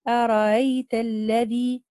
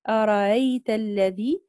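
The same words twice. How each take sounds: First: The second hamza is softened, between hamza and vowel. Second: The second hamza is softened, between hamza and vowel.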